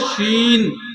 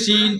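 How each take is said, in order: First: The name begins with an sh sound. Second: The name begins with a plain s sound. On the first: The speaker calls it right. "आप बोले शीन सीन।" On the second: The speaker calls it wrong. "लेकिन सीन ही बोलते हैं। अदाई कहाँ हुई?"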